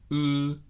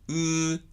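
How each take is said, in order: First: The lips are rounded and pushed out, not narrowed. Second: The lips stay neutral and unmoved for the vowel. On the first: The speaker calls it right. "積極的に唇を丸めて狭めない" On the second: The speaker calls it wrong. "レディーポジションから動かさないニュートラルでもない"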